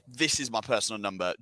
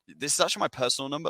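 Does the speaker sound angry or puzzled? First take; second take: angry; puzzled. First: It sounds angry and seething. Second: It sounds puzzled, like a question.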